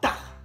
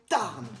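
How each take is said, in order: First: The final n sound is dropped. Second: The final n sound is pronounced.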